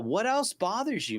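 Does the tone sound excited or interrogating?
excited. The tone sounds warm, upbeat and eager. The asker is keen to hear more. The speaker calls it right. "hey, I'm excited. Tell me more"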